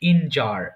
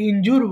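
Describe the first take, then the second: First: The second syllable sounds like 'jer'. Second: The second syllable sounds like 'joor'. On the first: The speaker calls it right. "এটা সঠিক উচ্চারণ হবে ইনজার" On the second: The speaker calls it wrong. "আমরা যদিও বলি ইনজুর"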